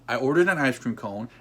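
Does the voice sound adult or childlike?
adult. It is said in a plain adult voice. It is a plain statement of fact.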